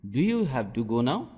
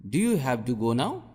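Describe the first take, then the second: No difference in how they are said.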